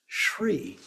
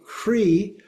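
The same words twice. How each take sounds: First: "shri" starting with sh; added S sound. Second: "hri" with breath blended into the r. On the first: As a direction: say "shri" as shree, sh before the r. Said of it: "an S is put in there". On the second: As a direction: say "hri" slowly as hree, one syllable. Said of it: "the H and the R get mixed". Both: Shown as a demonstration.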